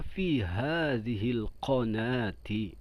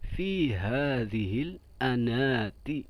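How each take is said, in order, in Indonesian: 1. Kata terakhir diawali dengan bunyi q yang jelas. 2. Kata terakhir diawali dengan bunyi vokal. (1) "bahasa Arabnya fushanya" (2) "kalau diganti A"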